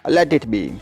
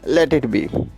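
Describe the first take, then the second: The two takes are said the same way.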